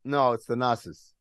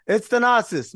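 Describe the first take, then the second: First: Said in the usual way. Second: Thanasis said higher and louder, correcting; stress on Thanasis. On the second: Real, not acted. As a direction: punch Thanasis up and loud. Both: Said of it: "My bad".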